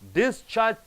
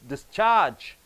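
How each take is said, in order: First: The stress is on the first syllable. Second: The stress is on the last syllable. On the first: It is used as a noun. "first syllable if you stress" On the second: It is used as a verb. "last syllable if you stress"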